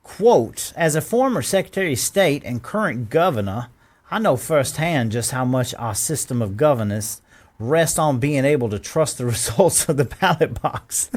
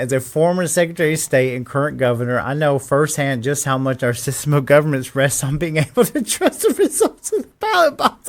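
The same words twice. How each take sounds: First: Said in the usual way. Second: Incredulous reread. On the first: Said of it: "quote by Governor Kemp". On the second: Shown as a demonstration. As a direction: reread it as if it's absurd. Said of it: "I'm reading it again".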